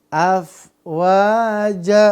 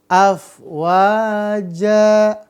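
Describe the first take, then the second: First: The word ends with a long a vowel. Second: The word ends with a long a vowel.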